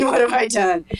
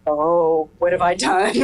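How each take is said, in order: First: A laugh breaking into the repeated line. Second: Said in the usual way. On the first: Retold or imitated. Mother echoing her own dismay, laughing at herself. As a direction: giggle through the second what have I done. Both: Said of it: "And I'm going".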